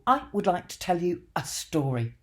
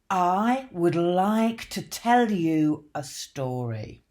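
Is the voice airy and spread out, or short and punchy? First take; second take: punchy; airy. First: The voice is belted with short, focused breath. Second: The voice is airy and flows with the breath. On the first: It grabs the audience's attention. "Direct. the voice goes directly to the audience" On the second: It sounds easy to listen to. "Diffuse. The voice starts spreading out in various directions"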